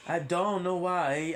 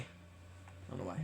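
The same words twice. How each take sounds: First: Sung, higher, slow sing-song. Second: Breathless whisper, slow. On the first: Repeating what people say, sung out high and slow. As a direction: croon it, lilting and slow. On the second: Repeating what people say, in a whisper. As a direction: whisper it under your breath. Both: Shown as a demonstration. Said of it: "I repeat it often what people say".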